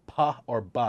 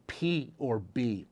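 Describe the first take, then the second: First: "puh" or "buh" for P or B; P and B as sounds. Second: Said in the usual way. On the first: Shown as a demonstration. Memory coach pairing the sounds for nine, P or B as "puh", "buh". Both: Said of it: "the B sound".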